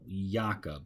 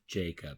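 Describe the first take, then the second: First: The name begins with a Y sound. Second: The name begins with a J sound. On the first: A speaker of another language says it. "somebody speaking a different language" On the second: This is the usual English form. "instead of Jacob"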